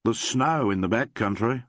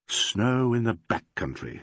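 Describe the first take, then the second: First: Said in the usual way. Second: Slow, struck with wonder; wondering exclamation. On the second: A narrator's reading. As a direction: say it as a sudden revelation. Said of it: "exclaimed Alan".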